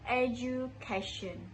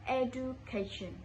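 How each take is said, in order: First: The middle syllable starts with a j sound. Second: The middle syllable starts with a plain d sound. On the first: The speaker calls it right. "it should be ju" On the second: The speaker calls it wrong. "I said do"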